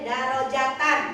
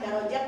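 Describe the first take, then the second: First: The word ends with an added -an sound. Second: The word ends on a plain -at sound. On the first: The speaker calls it right. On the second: The speaker calls it wrong. "jangan darajat deh"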